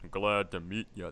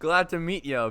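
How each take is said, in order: First: It is said in a deep voice. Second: It is said in an ordinary voice.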